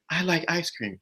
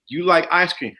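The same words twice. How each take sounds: First: Soft, suggestible repeat; obedient echo. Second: Steady, matter-of-fact prompt; leading instruction. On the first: Woman repeating what she was told, softly obedient. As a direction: repeat it softly, as if just persuaded. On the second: Man telling a woman what she likes, instructing. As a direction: tell them as if instructing. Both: Acted.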